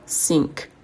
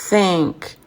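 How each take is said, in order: First: The word begins with an 's' sound. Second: The word begins with a 'th' sound. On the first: The speaker calls it wrong. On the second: The speaker calls it right.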